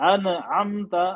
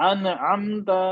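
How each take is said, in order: Both takes have the same delivery.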